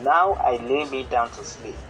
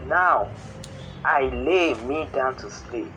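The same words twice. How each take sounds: First: Said in the usual way. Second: Slow recital, NOW set apart with a pause; measured prayer recital. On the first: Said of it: "as in". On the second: Shown as a demonstration. Teacher showing the rise and fall of a bedtime prayer, measured recital, pause after NOW. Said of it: "feel the regular rise and fall".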